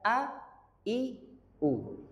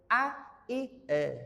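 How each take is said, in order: First: The last vowel is said with rounded lips. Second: The last vowel is said with spread lips. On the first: The speaker calls it right. "Harus mencucu" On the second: The speaker calls it wrong.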